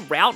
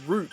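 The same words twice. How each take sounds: First: The word has an American pronunciation. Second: The word has a British pronunciation. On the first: "like you say route in like American English" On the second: "it's route in like U K English and uh, Australian"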